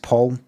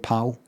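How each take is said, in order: First: The vowel sounds like the one in 'caught'. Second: The vowel sounds like the one in 'cat'. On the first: The speaker calls it right. "it's actually pronounced Paul" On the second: The speaker calls it wrong. "I've been saying pal"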